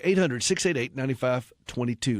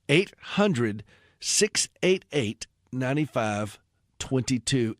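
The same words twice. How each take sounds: First: The number is read at a quicker pace. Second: The number is read at a slower pace.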